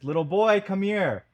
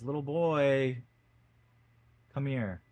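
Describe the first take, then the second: First: It is said more loudly. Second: It is said more quietly.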